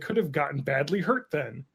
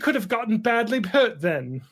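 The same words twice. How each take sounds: First: It is said in the speaker's usual accent. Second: It is said in a British accent.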